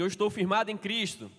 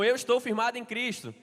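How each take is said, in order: First: It is said in a plain, ordinary tone. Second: It is said with strong, emphatic conviction.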